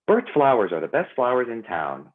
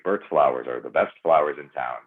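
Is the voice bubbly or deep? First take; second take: bubbly; deep. First: The voice is bright, bubbly and upbeat. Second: The voice is lower, deeper and more resonant. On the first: "it sounds really like like bubbly and not really how I talk" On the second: "I can go down here"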